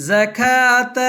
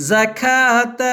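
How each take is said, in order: The two takes are said the same way.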